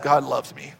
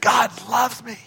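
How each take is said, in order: First: It is said in a flat, gloomy tone. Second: It is said in a joyful, lively tone. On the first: The speaker calls it wrong. "First one sounded depressed" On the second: The speaker calls it right. "It's got to be celebrative"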